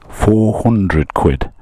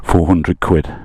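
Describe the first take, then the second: First: Four hundred quid drawn out slowly, stress on four; each word slow and heavy, four hundred quid; slow, stunned repeat. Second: Said in the usual way. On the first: Real, not acted. Repeating the price in disbelief.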